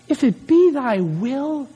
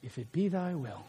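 First: Said in the usual way. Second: "If it be thy will" dropped much softer and lower, trailing off; sudden soft, deflated afterthought; deflated tag-on. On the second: Shown as a demonstration. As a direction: let the fire drain out and mumble "If it be thy will". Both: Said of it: "your voice gets, like, normal again".

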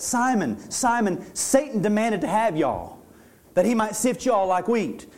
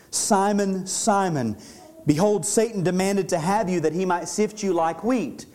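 First: Southern folksy retelling with y'all; casual Southern preacher paraphrase. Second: Said in the usual way. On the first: Shown as a demonstration. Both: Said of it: "this is how we would say it".

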